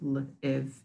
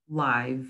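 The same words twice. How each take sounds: First: The word is said with a short vowel. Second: The word is said with a long vowel. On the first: To be a resident in a place. "Short vowel sound" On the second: To be alive. "the long vowel sound"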